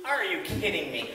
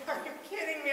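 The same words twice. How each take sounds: First: Amused, chuckling through the words; telling the audience how absurd it got; laughing disbelief. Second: High, incredulous, pulled back in volume; can't believe what you're hearing; reliving the frustration at the mechanic; exasperated disbelief. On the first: Real, not acted. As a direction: shake your head and laugh at the bad luck. Laughing comment on driver training. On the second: Retold or imitated. Frustrated at second Sears delay.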